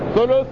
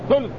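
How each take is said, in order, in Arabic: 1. الحرف الأوسط متبوع بـ u. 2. الحرف الأوسط لا يحمل حركة.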